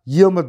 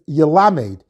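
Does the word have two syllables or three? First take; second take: two; three. First: The word is said with two syllables. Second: The word is said with three syllables. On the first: A person should keep learning. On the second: A person should keep teaching.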